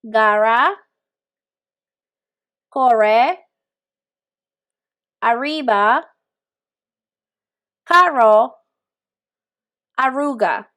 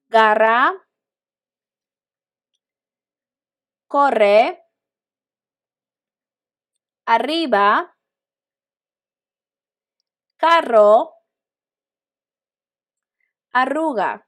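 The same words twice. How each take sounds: First: "Garra, corre, arriba, carro, arruga" with an English-like R, no trill; repeat-after-me words, R left unrolled; alternative unrolled R. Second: "Garra, corre, arriba, carro, arruga" with a short trilled RR; repeat-after-me words, R lightly rolled; slightly rolled R. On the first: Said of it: "Alternative sound". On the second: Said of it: "slight roll will be". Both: Shown as a demonstration.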